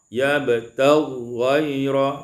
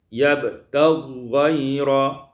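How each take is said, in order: First: The two gh sounds merge into one long sound. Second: The two gh sounds merge into one long sound.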